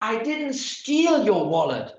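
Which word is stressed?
steal. The stress is on "steal".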